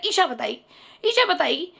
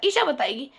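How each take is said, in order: First: Smug, brushing it off, "Isha" stressed with a rising lift; cocky attitude. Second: A lighter replay of the cocky dodge, "Isha" rising; smug attitude. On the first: The boyfriend dodging the aunt's question, smug and cocky. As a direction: say "Isha बताएगी" like it's not your problem. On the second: The boyfriend deflecting the question, mildly smug. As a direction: toss off "Isha बताएगी" dismissively. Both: Retold or imitated. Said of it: "उसके अंदर ये attitude था".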